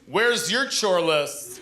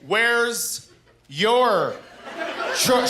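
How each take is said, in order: First: It is said at a normal, quicker pace. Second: It is said slowly and deliberately.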